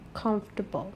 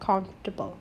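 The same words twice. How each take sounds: First: The middle sound is dropped from the word. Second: The same.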